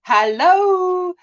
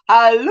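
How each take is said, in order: First: "hello" said as "hallo", with an A; high, drawn-out "hello" with an A in the first syllable; South African "hallo". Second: South African "Hello" called out in greeting; loud South African greeting on "Hello". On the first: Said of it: "because that's how we say it". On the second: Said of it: "typical South African way of greeting". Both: Shown as a demonstration.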